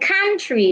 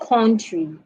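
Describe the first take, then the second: First: The first vowel is a short mid 'uh'. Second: The first vowel is a different, non-'uh' sound. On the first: The speaker calls it right. "As in country" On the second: The speaker calls it wrong. "not country"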